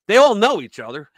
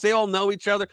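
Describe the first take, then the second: First: Louder, ALL stressed with a rise; punchy retelling. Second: Said in the usual way. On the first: Retold or imitated. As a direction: hit "all" hard and bright. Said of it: "he goes". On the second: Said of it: "He goes".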